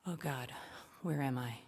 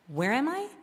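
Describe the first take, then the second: First: Much softer and lower, a scared murmur; the dread sinking in, barely voiced; frightened hush. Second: Rising, amazed question, pitched higher; a small-town girl dazzled by the city; wide-eyed wonder. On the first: Alone with Jake in the dark woods, frightened hush. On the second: Retold or imitated. To her sorority sister, stunned by the city, awed. Awed first visit to New York.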